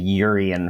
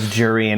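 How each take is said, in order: First: The name starts without a J sound. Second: The name starts with a J sound. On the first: "as opposed to that, we sort of said Urian" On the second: "where they pronounced the J"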